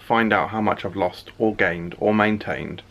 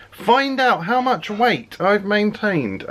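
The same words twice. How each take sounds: First: Said in the usual way. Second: Slow, high dramatic announcer; movie trailer voice. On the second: Acted. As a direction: drag it out like a trailer teaser. Teaser line repeated as trailer.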